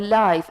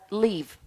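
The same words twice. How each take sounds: First: It is pronounced as the adjective form. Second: It is pronounced as the verb form. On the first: Not dead. "it's pronounced as the live and it's an adjective" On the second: To survive. "it's a verb and it's pronounced as live"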